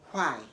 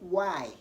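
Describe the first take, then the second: First: It is said with an h sound. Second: It is said without an h sound. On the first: The speaker calls it wrong. "don't say why" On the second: The speaker calls it right. "Say why"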